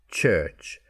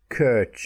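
First: The word begins with a ch sound. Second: The word begins with a k sound. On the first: The speaker calls it right. "it's ch" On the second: The speaker calls it wrong. "church is not kirch"

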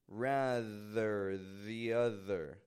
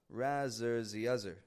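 First: The middle of 'rather' has a voiced TH sound. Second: The middle of 'rather' has a Z sound. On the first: The speaker calls it right. "Did you feel your voice flowing between your tongue and teeth?" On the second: The speaker calls it wrong. "Or maybe more like this. Razor the other. A lot of people mix those up"

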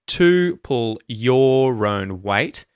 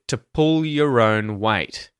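First: To and your keep their full vowels. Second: To and your are reduced to schwa. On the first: "So instead of" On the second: "you'll hear"

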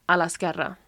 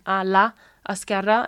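First: The vowels of la and esquerra merge into one. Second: The vowels of la and esquerra are said separately. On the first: The speaker calls it right. "it's just a l'esquerra" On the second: The speaker calls it wrong. "instead of saying a la esquerra"

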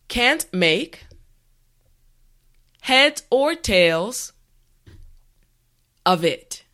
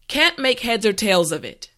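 First: The phrase is said slowly and carefully. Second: The phrase is said at normal speed. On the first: "repeat after me" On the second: "now let's say it at a normal pace"

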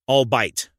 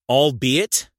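First: The word ends with one syllable, 'bite'. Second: The word ends with two syllables, 'be it'. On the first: The speaker calls it wrong. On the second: The speaker calls it right.

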